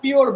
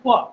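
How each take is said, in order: First: It ends with an audible r sound. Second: It ends in a vowel with no r sound. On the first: "যেটাকে আমরা পিওর বলি" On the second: "শব্দটা হচ্ছে ফুয়া"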